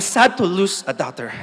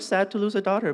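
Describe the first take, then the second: First: Spoken in a tearful, choked-up voice. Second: Spoken in a normal, steady voice. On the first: "chopping onions, so it sounded more like" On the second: "they said"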